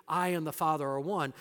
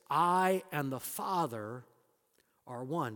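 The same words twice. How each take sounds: First: Said in the usual way. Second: "I and the Father" drawn out slow, pause before "are one"; slow weighted claim. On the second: Shown as a demonstration. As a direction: let "I" rise and hang, then drop onto "are one". Preacher stresses Jesus' claim.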